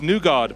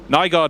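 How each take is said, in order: First: The name is said the Danish way. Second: The name is said the English way. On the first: The speaker calls it right. "it's Newgard" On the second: The speaker calls it wrong. "no more"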